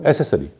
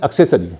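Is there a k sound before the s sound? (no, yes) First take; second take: no; yes. First: It starts with no k sound before s. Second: It starts with a k sound before s. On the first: The speaker calls it wrong. "अधिकतर लोग उसे एसेसरी कहते हैं" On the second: The speaker calls it right. "आपने देखा होगा एक शब्द है एक्सेसरी"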